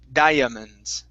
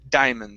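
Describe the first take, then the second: First: The first two vowels are pronounced separately. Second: The first two vowels are blended together. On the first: The speaker calls it wrong. "the I and the A there at the beginning aren't pronounced separately, saying diamonds. So we don't say that" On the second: The speaker calls it right. "We say diamonds. So together"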